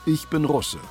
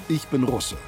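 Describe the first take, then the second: No difference in how they are said.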